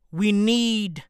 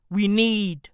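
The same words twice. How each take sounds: The two takes are said the same way.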